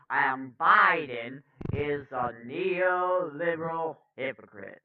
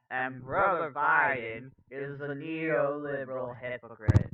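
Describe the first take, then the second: First: Rough first-try orator impression; Cornel West. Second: Joyful, rolling orator's lilt; easygoing preacherly impression; Cornel West. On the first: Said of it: "I can do a better Cornel voice". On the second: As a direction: say it with a little joyful spin. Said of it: "put a little joyful spin on it".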